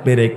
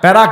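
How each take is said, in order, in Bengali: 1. প্রথম অক্ষরে 'e' স্বরধ্বনি আছে। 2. প্রথম অক্ষরে 'ya' স্বরধ্বনি আছে। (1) "পেরেক বুঝেন?" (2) "এলাকায় কি বলে? প্যারাক।"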